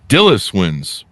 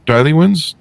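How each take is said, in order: First: The name ends in an 'iss' sound. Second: The name ends in an 'ee' sound. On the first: The speaker calls it right. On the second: The speaker calls it wrong. "Do I have that pronounced right?"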